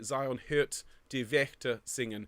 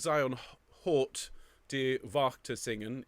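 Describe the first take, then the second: First: The vowels are fronted umlaut ö and ä sounds. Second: The vowels are plain o and a sounds. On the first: The speaker calls it right. "it will be" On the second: The speaker calls it wrong. "although it looks like"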